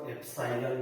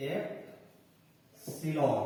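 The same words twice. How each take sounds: First: एप्सिलॉन said as ep-sai-lon with a long ai; epsilon, alternate way. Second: एप्सिलॉन said slowly as ep-si-lon, short i; एप्सिलॉन को धीरे से एप-सि-लॉन बोलें; epsilon, usual way. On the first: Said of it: "कुछ लोग इसको एप्सिलॉन भी बोलते हैं". (एप्सिलॉन को एप-साइ-लॉन बोलें) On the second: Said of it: "इसको पढ़ते हैं एप्सिलॉन". (एप्सिलॉन धीरे से, छोटी इ के साथ) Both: Shown as a demonstration.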